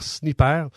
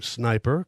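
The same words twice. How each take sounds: First: The name is pronounced the French way. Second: The name is pronounced the English way.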